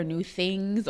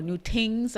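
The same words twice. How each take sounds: First: Said in the usual way. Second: "tings" with a Trinidadian hard t; light Trinidadian lilt on "tings"; Trinidadian accent. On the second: Shown as a demonstration. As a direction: say "tings" for things, Trinidadian style. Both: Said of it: "as I should say in my Trinidadian accent".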